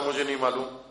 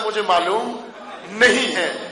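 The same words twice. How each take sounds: First: Low, soft, unbothered answer; calm reply. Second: Mildly exasperated, pausing before the last words; incredulous quoting. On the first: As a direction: quote it quietly, pitch dropped and matter-of-fact. امام کا پرسکون جواب نقل. (دھیمے، پرسکون لہجے میں) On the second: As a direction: repeat the answer as a baffled reporter would. Reporter جھنجھلا کر جواب دہراتا ہے. (حیرت بھرے شکایتی لہجے میں) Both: Retold or imitated.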